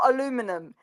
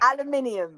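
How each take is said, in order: First: It is said with an American pronunciation. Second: It is said with a British pronunciation. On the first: The speaker calls it wrong. "or aluminum" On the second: The speaker calls it right. "and it's"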